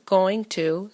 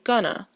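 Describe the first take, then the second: First: It is said as two full separate words. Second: It is said as one short reduced word. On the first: "the two words going to" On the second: "a reduced utterance of going to"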